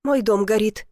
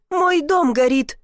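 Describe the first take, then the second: First: Said in the usual way. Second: Higher, slower cry of dismay; alarmed cry. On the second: A narrator's reading. Woman seeing her own house burn, alarmed. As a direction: stretch it out in rising alarm.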